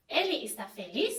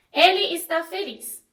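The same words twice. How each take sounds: First: "Ele está feliz" asked softly, rising on "feliz"; softer questioning rise at the end of "Ele está feliz"; question intonation. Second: "ele está feliz" as a firm statement, falling at the end; statement intonation. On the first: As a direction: ask "Ele está feliz" with a final upturn. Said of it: "eu fiz uma pergunta". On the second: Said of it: "eu fiz uma afirmação". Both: Shown as a demonstration.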